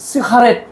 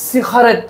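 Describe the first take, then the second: The two takes are said the same way.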